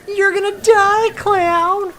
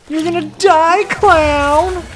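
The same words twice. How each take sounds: First: It is a higher Happy Gilmore impression. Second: It is said in a lower voice.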